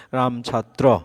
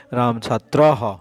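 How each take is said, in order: First: Said in the usual way. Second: ছাত্রহ said slowly with a clear echoing হ after the visarga; teacher carefully demonstrating Ram ছাত্রহ for students; Sanskrit visarga pronunciation. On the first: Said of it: "একটা উচ্চারণ দেওয়া আছে". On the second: Shown as a demonstration. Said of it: "উচ্চারণটা হচ্ছে এই যে রাম ছাত্রহ".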